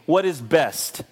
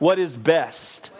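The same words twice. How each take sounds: First: It sounds reluctant, as if forced. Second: It sounds eager, as if truly meant.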